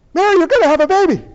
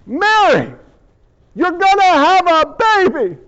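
First: High, rapid-fire announcement; imagined Gabriel. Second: High, emphatic proclamation; grand angelic announcement. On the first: Gabriel gives Mary the baby news, in a hurried high blurt. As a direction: blurt it out at double speed, loudly. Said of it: "you imagine Gabriel, he's like". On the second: Gabriel announces the baby to Mary, proclaiming grandly. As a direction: announce it big, with weight on each phrase. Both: Acted.

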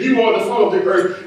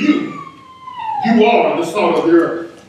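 First: Said in the usual way. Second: High ringing "You," before the line; emphatic YOU. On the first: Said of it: "here's how it really reads". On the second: Shown as a demonstration. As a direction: fling out the first "You" very high, like pointing at them. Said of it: "here's how it really reads in the Greek text".

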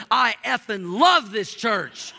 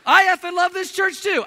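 First: Slow, louder, punch the word love; imitating a big guy's blunt enthusiasm; emphatic heartfelt declaration. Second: High, loud, joking outburst; mock exuberant agreement. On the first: Churchgoer gripping the pastor's hand to praise the church, emphatic. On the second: Pastor jokingly agreeing with the swearing churchgoer, over-the-top excited. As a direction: echo the blunt praise with comic gusto.

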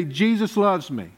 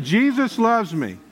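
First: Said in the usual way. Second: Like you mean it. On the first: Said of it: "say it like you mean it". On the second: Shown as a demonstration. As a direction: say it with conviction, drawing it out. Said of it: "Say it like you mean it".

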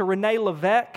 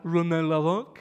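First: Said in the usual way. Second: Hammed-up French accent; bad French accent. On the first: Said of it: "they knew that it wasn't a French accent". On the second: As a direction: attempt a French accent, badly, with a rising end. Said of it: "I can't even do a French accent".

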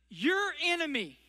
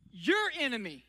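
First: Said in the usual way. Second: Your enemy repeated lower and darker; weighty repeat. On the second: Shown as a demonstration. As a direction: drop the voice low to drive home your enemy.

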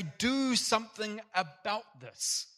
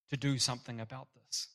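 First: Higher, slow pleading cry. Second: Said in the usual way. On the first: Retold or imitated. Person crying out to God over injustice, slow high plea. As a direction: plead "Do something about this" high and slow, punching "Do". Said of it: "we cry out and say".

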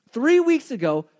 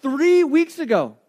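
First: Said in the usual way. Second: "three weeks ago" said slowly, leaning on "three"; slow down and punch "three"; slow stressed repeat. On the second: Shown as a demonstration.

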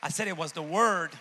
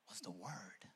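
First: Loud preacher's shout; forceful, booming insistence; emphatic repeat. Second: Low, soft landing on the answer; hushed, deep statement; quiet reveal. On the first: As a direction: belt it out to the congregation. Preacher repeats the answer loudly. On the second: Quiet answer before shouted repeat. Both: Real, not acted.

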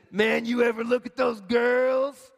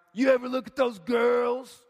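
First: Slow, lightly voiced creepy dude; hint of a leering man; slimy guy voice. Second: Hammed-up sleazy dude calling out; mock leering shout; slimy guy voice, louder. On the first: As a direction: drawl it out like a sleazy guy. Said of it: "I don't know if he really talked like that". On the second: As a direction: push the creep voice harder. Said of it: "in my mind he did".

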